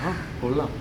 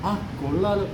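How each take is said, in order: First: It is said warmly, with moderate approval. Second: It is said with strong, excited admiration. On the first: The poem is good. "Means good" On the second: The poem is wonderful. "Means wonderful"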